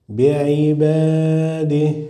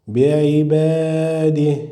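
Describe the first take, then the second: No difference in how they are said.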